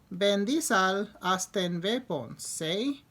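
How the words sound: It is said with a foreign-sounding accent.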